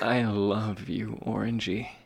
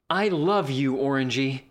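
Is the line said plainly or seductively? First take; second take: seductively; plainly. First: It is said in a sultry, seductive way. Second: It is said in a plain, ordinary way.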